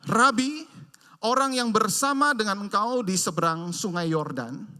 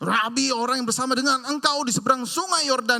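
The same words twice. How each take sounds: First: It is said in a calm, plain reading tone. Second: It is said in a harsh, angry, heated tone. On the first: "rasanya tidak seperti yang tadi saya katakan" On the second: "dengan nada yang sangat keras"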